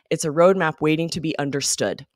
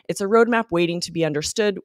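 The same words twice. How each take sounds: First: The sentence ends with a pause after 'understood'. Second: It runs straight on without pausing after 'understood'. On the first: The speaker calls it right. "you have to pause with the period" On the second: The speaker calls it wrong. "there was no pause for pr pronunciation, which made it very strange"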